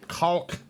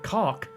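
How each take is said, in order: First: It is said with a clearly sounded L. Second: It is said plainly, with no L sound. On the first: "the L sound is like caulk" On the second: "I know it's pronounced like caulk"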